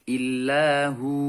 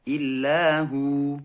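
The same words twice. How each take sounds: The two takes are said the same way.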